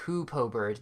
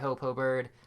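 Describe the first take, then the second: First: The first vowel sounds like 'oo' in 'hoop'. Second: The first vowel sounds like 'oh' in 'hope'. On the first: The speaker calls it right. "instead of Hoopo Bird" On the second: The speaker calls it wrong. "I really said Hopo Bird the entire video"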